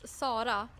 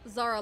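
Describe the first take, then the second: First: The name is said with Swedish pronunciation. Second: The name is said with English pronunciation. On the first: "I'm Swedish" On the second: "Zara Larsson in English"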